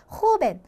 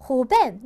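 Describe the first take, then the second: First: 호벤 with the 벤 syllable higher, louder and longer; correct stress. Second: 호벤 with the 호 syllable pushed and 벤 left weak, the wrong way; wrong stress. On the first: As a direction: lean hard on 벤 in 호벤. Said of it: "길게 발음을 해주시면 돼요". (호벤의 벤을 높고 세고 길게) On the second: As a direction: deliberately stress 호 in 호벤. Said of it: "틀린 바-, 억양이 되어버리는 거죠". (호벤의 호에 잘못 강세를 주어) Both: Shown as a demonstration.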